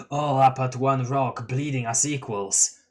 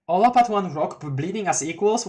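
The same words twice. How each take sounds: First: Calm stoner clown delivery; laid-back clown voice. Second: Puzzled echo. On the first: Acted. Gamzee line before reader's echo. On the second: Real, not acted. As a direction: reread it in disbelief. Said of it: "Well, that's ominous".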